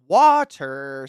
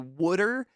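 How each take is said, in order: First: The middle sounds like a clear t. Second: The middle sounds like a soft d. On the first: The speaker calls it right. "Ugh, water, stop" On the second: The speaker calls it wrong. "I sometimes say "would'er,""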